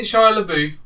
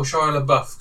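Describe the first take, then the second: First: "LaBeouf" with a long oo, like "la-BOOF"; "LaBeouf" ending in a long oo sound plus f; LaBeouf rhyming with roof. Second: "LaBeouf" with a short u, like "la-BUFF"; American-style "LaBeouf", ending like "buff". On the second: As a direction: say "LaBeouf" to rhyme with stuff. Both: Shown as a demonstration. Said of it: "in America they say Buff".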